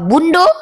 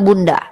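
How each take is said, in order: First: The word ends with an o vowel. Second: The word ends with an a vowel. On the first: This is how people from Padang say it. "kalau orang Padang bilang uh, bundo" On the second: This is how Javanese people say it. "orang Jawa bilang bunda"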